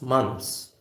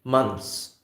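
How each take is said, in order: No difference in how they are said.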